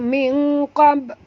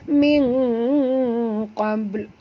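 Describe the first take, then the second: First: The final l sound is dropped. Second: The final l sound is clearly pronounced. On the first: The speaker calls it wrong. "Jangan baca min qab, habis lamnya hilang ya" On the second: The speaker calls it right. "ha ni ya"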